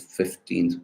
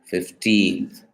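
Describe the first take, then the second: First: The stress is on the first syllable. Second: The stress is on the second syllable. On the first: The word comes before a stressed noun. "the stress is on the first syllable itself" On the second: The word stands alone. "in isolation is stressed on the second syllable"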